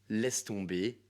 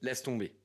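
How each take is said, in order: First: It is said in a calm, reassuring tone. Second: It is said in a curt, dry tone.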